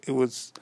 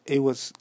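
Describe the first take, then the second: No difference in how they are said.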